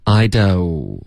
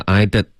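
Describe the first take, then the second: First: "I do" (don't) with a gliding oh; full diphthong. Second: "don't" reduced to a short "did"; mispronounced, no glide. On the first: Teacher modelling for a student, full diphthong. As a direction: glide through the vowel in "do". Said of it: "所以双元音do". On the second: Teacher copying a student's mistake, short vowel. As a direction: cut the glide, saying "I did". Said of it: "发成了I did". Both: Shown as a demonstration.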